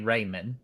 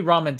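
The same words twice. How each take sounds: First: "ramen" said as RAY-men; long "ay" in the first syllable of "ramen"; the other guy's pronunciation. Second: "ramen" said as RAH-men; own pronunciation of ramen. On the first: Retold or imitated. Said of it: "the other guy was saying ramen". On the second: Shown as a demonstration. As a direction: open "ah" in the first syllable of "ramen". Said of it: "I do ramen too".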